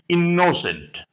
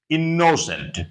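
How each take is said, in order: The two takes are said the same way.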